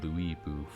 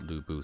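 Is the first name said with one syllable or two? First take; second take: two; one. First: The first name has two syllables, like Louis. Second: The first name has one short syllable. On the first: This is an odd version of unclear origin. The speaker calls it wrong. "I don't know where they got Louis Bu from" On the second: This is how Chinese media say the name. The speaker calls it right. "they've always pronounced it Lu Bu"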